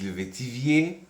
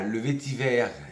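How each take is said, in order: First: The last syllable has an added 'i' glide. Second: The last syllable is a plain 'ver'. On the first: The speaker calls it wrong. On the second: The speaker calls it right.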